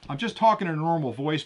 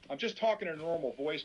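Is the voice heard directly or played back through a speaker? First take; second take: direct; playback. First: The voice is heard directly, not through a speaker. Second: The voice is played back through a small speaker. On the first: "And I'll start recording" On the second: "Now I'll play that audio"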